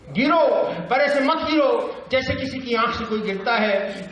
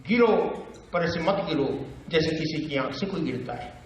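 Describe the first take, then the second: First: High, urgent verse recital; raised-pitch poetic appeal; Bhavani Prasad Mishra. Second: Understated, paused verse; Bhavani Prasad Mishra. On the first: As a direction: exclaim the command, then declaim high. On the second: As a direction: pause after the command, then talk it through. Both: Acted. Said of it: "बातचीत की शैली".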